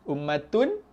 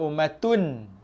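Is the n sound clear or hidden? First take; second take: clear; clear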